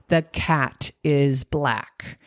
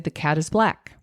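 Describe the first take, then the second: First: The words are said separately, one by one. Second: The words are run together smoothly.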